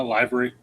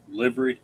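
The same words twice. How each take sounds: First: "livery" starting like "lie"; long I in LIVERY. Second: "livery" starting like "liver"; short I in LIVERY. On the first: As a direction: try "livery" as LIE-vuh-ree. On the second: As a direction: try "livery" as LIH-vuh-ree. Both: Shown as a demonstration. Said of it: "Tim, what do you say?".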